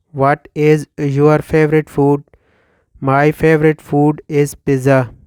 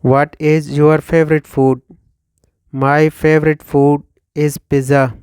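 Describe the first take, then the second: No difference in how they are said.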